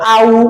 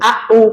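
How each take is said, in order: First: The vowels glide together without any catch. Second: The vowels are separated by a sharp catch. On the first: The speaker calls it wrong. "এরকম বললে ভুল হবে, কারণ ধাক্কা লাগলো না" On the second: The speaker calls it right. "একটু ধাক্কা লাগবে, ঝটকা লাগবে"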